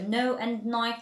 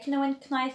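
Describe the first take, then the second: First: The K is silent at the start. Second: The K sound is pronounced at the start. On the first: The speaker calls it right. "because the K is silent" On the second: The speaker calls it wrong. "we don't say know and knife"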